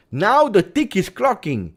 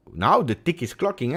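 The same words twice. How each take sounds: First: Much higher, louder and slower; Now the tick is clocking, driven up loud and slow; emphatic repeat. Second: Said in the usual way. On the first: Shown as a demonstration. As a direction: hammer the deadline home.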